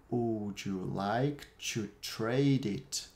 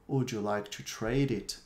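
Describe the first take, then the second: First: Very slow, stretched-out question for learners; slow model sentence. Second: Said in the usual way. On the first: Shown as a demonstration. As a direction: draw out every word clearly. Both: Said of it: "Eu vou repetir cada uma das frases".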